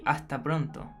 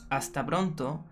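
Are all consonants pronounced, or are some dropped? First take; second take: some dropped; all pronounced. First: Some consonants are dropped or softened. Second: Every consonant is pronounced fully. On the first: "we say ... We don't say all the all the consonants" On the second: "instead of saying"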